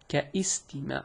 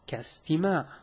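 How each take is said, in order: First: An extra i vowel is sounded before the s. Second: The ka joins straight onto the s sound. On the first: The speaker calls it wrong. "It is not kaistima'" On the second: The speaker calls it right. "It is kastima', meaning it is pronounced as if it is written like so"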